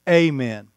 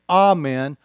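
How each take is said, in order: First: The word begins with an 'ay' sound. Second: The word begins with an 'ah' sound. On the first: It is the common everyday pronunciation. "A lot of people say amen. That's fine" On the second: It follows the Greek pronunciation of the letters. "I say amen"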